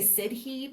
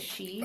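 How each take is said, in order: First: The word is pronounced the way it is spelled. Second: The word is pronounced like the word 'she'. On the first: The speaker calls it wrong. "You would want to say Sidhe, but that's not how you say it" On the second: The speaker calls it right. "You say it she"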